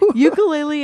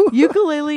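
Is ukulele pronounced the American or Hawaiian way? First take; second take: American; American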